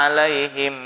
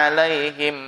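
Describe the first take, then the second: The two takes are said the same way.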